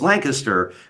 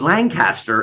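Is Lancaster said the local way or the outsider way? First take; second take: local; outsider. First: It is said the way locals pronounce it. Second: It is said the way outsiders pronounce it. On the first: The speaker is a local. The speaker calls it right. "no, it's Lancaster. What Danny said was the correct pronunciation" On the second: The speaker is not from the area. The speaker calls it wrong. "for anybody who's listening to this outside of P A and you're like, oh, it's Lancaster"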